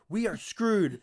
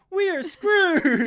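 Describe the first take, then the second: First: It is said in a gloomy, defeated tone. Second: It is said in a cheerful, upbeat tone.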